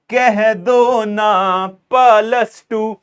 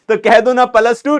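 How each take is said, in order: First: Very slow, stretched playful chant; drawn-out catchphrase. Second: Said in the usual way. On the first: Pretend. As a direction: stretch each word like a meme line. (बहुत धीमा, खींचकर मज़ाकिया अंदाज़ में)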